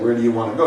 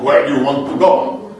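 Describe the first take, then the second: First: It is said in a plain accent. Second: It is said in a Russian accent.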